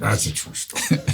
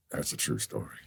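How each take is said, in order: First: Lightly imitated actor at normal volume; a hint of impersonation, voiced at talking level. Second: Very low, hushed actor impersonation; quiet, deep mock confession. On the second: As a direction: drop it low and soft, imitating the star. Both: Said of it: "and he went".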